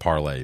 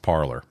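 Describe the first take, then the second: First: The name ends with an 'ay' vowel sound. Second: The name ends with an 'er' sound. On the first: The speaker calls it right. "it's enunciated Parlay" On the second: The speaker calls it wrong. "but yes, Parlor"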